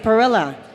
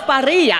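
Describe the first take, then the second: First: The name is said the Americanized way. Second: The name is said the original Italian way. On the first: The family name was changed to fit in. The speaker calls it wrong. "some people in my family say perilla" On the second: The family name keeps its original roots. The speaker calls it right. "no, it's parrilla"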